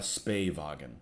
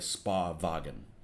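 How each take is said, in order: First: The first word has an 'ay' vowel. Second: The first word has an 'ah' vowel. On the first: The speaker calls it right. "Spay wagon just sounds weird" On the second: The speaker calls it wrong. "I thought for sure was Spa because it just sounds better"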